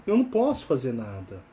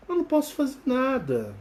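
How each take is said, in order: First: "não" said low and resigned. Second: "não" stressed high; emphatic. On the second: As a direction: hit "não" high and firm. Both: Shown as a demonstration.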